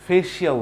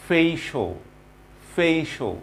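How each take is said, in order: First: "ফেশিয়াল" with a full "shi-aal" ending; wrong pronunciation. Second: "ফেশিয়াল" ending in a short "sho"; correct pronunciation. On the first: Teacher shows what not to say, mispronunciation. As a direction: say "ফেশিয়াল" as "fay-shee-AL". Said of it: "না কিন্তু এটার pronunciation". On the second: Teacher models the word for learners, correct pronunciation. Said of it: "it should be facial". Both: Shown as a demonstration.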